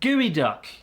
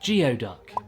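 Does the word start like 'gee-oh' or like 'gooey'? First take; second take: gooey; gee-oh. First: The first part sounds like 'gooey'. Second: The first part sounds like 'gee-oh'. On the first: The speaker calls it right. "it's called gooey duck" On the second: The speaker calls it wrong. "I thought geoduck was pronounced geoduck, because that's how it's bloody spelt"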